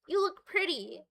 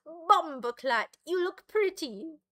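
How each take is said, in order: First: Said in the usual way. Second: Lightly put-on Jamaican accent, slow first word; mock Jamaican accent. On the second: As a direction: try out a jokey Jamaican accent. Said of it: "Or a Jamaican one?".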